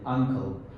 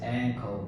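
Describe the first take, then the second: First: The first vowel is the 'u' of 'cup'. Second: The first vowel is the 'a' of 'cat'. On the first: The speaker calls it wrong. "you were pronouncing you word, uncle" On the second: The speaker calls it right. "you should uh, pronounce this word as ankle"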